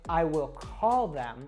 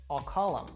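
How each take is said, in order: First: The words are said fully, with the th sound. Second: It is reduced, with them said as em. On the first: "instead of saying" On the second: "We will drop that T H sound and we're just left with um"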